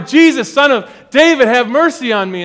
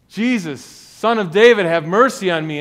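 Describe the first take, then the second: First: It is said much louder, almost shouted. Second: It is said at a normal, quieter volume.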